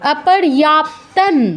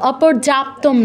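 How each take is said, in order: First: The word ends with an N sound. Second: The word ends with an M sound. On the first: The speaker calls it right. "অনুসারের পর ত আছে" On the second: The speaker calls it wrong. "অপর্যাপ্তম নয়"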